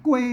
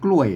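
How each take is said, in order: First: It is said with the special Northern Thai tone. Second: It is said with the Standard Thai tone. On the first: "มันก็เสียงโทพิเศษโทเมืองนะครับ" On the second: "อ่านภาษาไทยมันกล้วยนะ"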